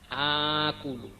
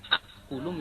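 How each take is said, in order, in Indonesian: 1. Vokal pertama dibaca panjang. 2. Hamzah mengikuti vokal pertama. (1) "menjadi akulu" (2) "yang awalnya akulu"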